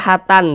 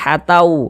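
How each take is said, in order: First: The final n is pronounced clearly. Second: The final n merges into a w sound. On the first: The speaker calls it wrong. "jangan dibaca hatan" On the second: The speaker calls it right. "tapi hatau, masuk ke huruf waw"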